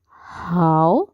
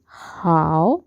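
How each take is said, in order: No difference in how they are said.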